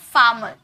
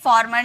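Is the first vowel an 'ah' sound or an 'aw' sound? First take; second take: ah; aw. First: The first vowel is an open 'ah' sound. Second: The first vowel is a rounded 'aw' sound. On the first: The speaker calls it right. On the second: The speaker calls it wrong.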